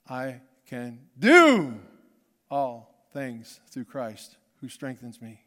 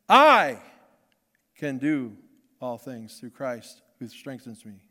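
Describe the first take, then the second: First: The stress falls on the word "do". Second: The stress falls on the word "I".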